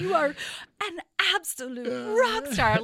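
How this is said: The praise sounds patronizing and overdone.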